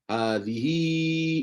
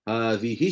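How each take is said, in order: First: The final vowel is held extra long. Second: The final vowel is short, not lengthened. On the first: "panjang empat atau lima harakat" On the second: "tak jadi silah"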